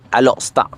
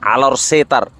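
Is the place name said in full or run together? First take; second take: run together; full. First: The name is run together as Alostar. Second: The name is said fully as Alor Setar. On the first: It is said the way locals say it. "orang utara atau orang Kedah, maka dia akan sebut dengan Alostar" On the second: It is read as written. "bila dibaca Alor Setar"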